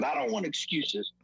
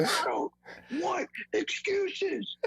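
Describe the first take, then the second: First: Firm, slightly raised pitch; retold coach's rebuff. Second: Very high, slow strained scream; mock screaming coach. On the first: Coach answers player's film excuse, contained firm rebuff. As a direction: cut off the excuse without yelling. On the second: Coach rejects player's excuse in film room, mock high screaming. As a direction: drag out the rebuff in a hammed-up scream. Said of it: "they start screaming".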